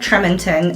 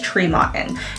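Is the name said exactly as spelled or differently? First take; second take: as spelled; differently. First: Every letter of the name is pronounced as spelled. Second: The name is not pronounced as it is spelled. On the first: The speaker calls it wrong. "I know it's spelled Tremonton, and a lot of people pronounce it that way" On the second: The speaker calls it right. "but it is Tremonton"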